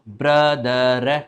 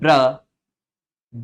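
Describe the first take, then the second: First: The final r sound is pronounced. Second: The final r sound is left silent. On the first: The speaker calls it wrong. "यदि ये बोला तो गलत हो जाएगा" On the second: The speaker calls it right. "वास्तव में बोला जाता है ब्र द। लास्ट का जो रे ना वो बोला नहीं जाता"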